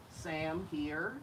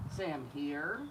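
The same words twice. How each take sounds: The two takes are said the same way.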